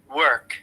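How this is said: It is said with an audible R sound. "And American I P A"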